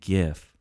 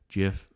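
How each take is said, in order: First: The word begins with a hard G sound. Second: The word begins with a J sound. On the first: "GIF is what everyone says" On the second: "that J sound is the correct one"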